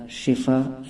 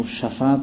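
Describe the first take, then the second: First: شفا said "shifa", short i after sh; zer on shin. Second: شفا said "shafa", short a after sh; zabar on shin. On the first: Teacher showing viewers the correct word, شفا as "shifa". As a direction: say شفا with an i in the first syllable. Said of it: "شین کے زیر کے ساتھ". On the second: Teacher showing the common misreading, شفا as "shafa". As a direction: say شفا with an a in the first syllable. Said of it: "شین کے زبر کے ساتھ". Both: Shown as a demonstration.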